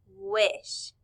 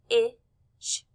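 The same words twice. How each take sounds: First: Said in the usual way. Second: "w-ish" in separate sounds wuh, short i, sh; sounded out. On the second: Shown as a demonstration. Teacher putting letter sounds together, sounded out. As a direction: break "w-ish" up with pauses. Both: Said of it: "put it all those sounds together".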